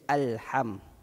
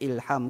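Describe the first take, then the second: First: The word begins with an a vowel. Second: The word begins with an i vowel. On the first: The speaker calls it right. "Mesti dibaca alham" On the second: The speaker calls it wrong. "kalau orang yang tak tahu, dia akan macam ilham ke"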